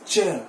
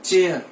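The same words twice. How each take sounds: First: "chair" as cheh, no R; silent R. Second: "chair" as CHAY-ar; wrong pronunciation. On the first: Teacher correcting learners, chair said with silent R. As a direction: say chair without its final R. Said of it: "वो silent है इसमें". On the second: Teacher rejecting the habit, chair said CHAY-ar. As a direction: sound the R in chair, two beats. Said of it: "it is not". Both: Shown as a demonstration.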